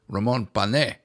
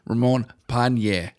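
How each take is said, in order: First: The surname has a plain 'n' sound, no 'ny'. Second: The surname has an 'ny' sound before the vowel. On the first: The speaker calls it right. "it's actually on the E" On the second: The speaker calls it wrong. "with the little thing on the top of the N"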